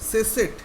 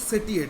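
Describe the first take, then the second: First: The middle consonant is a 'sh' sound. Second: The middle consonant is a plain 't' sound. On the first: It is the word's real pronunciation. "Original जो इसका जो pronunciation" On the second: It follows the spelling to help remember it. "Spelling करेंगे तो सेटिएट"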